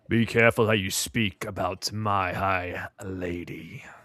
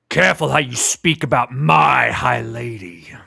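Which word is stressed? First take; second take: lady; my. First: The stress is on the word lady. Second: The stress is on the word my.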